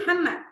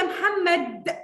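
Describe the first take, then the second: First: "محمد" with the final د swallowed; dropped final sound. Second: "محمد" with a fully released, emphatic final د; high-pitched "يا محمد", hitting the last د hard; over-pronounced final consonant. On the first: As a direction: say "محمد" casually, losing the د at the end. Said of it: "فين الدال؟". ("محمد" من غير نطق الدال في الآخر) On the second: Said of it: "ده ما بيحصلش". ("يا محمد" بدال واضحة ومبالغ فيها) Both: Shown as a demonstration.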